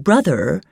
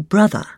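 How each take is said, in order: First: "brother" with the final R sounded; R pronounced. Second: "brother" ending in an open uh, no R; dropped R. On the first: Reader showing the form before the change, "brother" with R sounded. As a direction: say "brother" ending in a clear r. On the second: Reader teaching the Queen's English, "brother" with dropped R. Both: Shown as a demonstration. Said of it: "drop the R from words ending in er and or".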